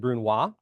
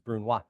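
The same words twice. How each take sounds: First: The final consonant is left silent. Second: The final consonant is clearly sounded. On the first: The speaker calls it wrong. "Some people say brunoise" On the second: The speaker calls it right. "I don't know if you heard me pronounce that S on the end"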